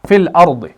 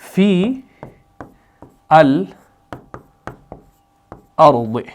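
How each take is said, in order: First: The first word merges into the article. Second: Each word is said separately with a long vowel.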